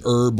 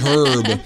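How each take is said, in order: First: The word begins without an h sound. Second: The word begins with an h sound. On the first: It refers to a plant. "we pronounce it herb when it's a plant" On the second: It refers to a person's name. "I think it's herb when it's a human being"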